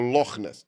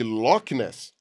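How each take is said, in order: First: The 'ch' is a breathy, blown sound. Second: The 'ch' is a hard k sound. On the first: This is the local Scottish way of saying it. The speaker calls it right. "Aquele C H ali é pronunciado da maneira assoprada que nem na Alemanha" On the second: This is the English way of saying it. The speaker calls it wrong. "você vai falar quando estiver na Inglaterra"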